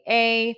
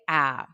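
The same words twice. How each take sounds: First: The vowel sounds like the letter's name. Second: The vowel is short, as in hat. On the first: "a long A will say" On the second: "a short A will say"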